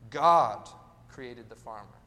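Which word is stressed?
God. The stress falls on the word God. The creator is the center of the story. The speaker calls it right. "maybe we should be saying"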